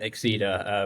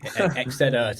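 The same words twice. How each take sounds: First: The name is said with an English pronunciation. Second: The name is said with a Spanish pronunciation. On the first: This is how it is said in everyday use. "but Exceda" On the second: This is the technically correct pronunciation. "it's a Spanish word for exceed... So it's pronounced E- Exceda technically"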